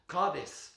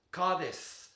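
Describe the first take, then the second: No difference in how they are said.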